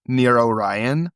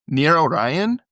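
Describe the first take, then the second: First: Slow, drawn-out NEAR ORION; slow mysterious caller. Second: Higher, quicker ORION rising at the end; puzzled echo question. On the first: Caller's line, then [name] repeats it. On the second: [name] repeats caller's words, puzzled. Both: Acted.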